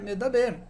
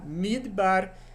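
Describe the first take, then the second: First: The word has three syllables, me-da-ber. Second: The word has two syllables, mid-bar. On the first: It is the verb meaning speaking. The speaker calls it wrong. "Não é medaber" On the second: It is the noun meaning desert. The speaker calls it right. "Como pronuncia isso aqui? Midbar"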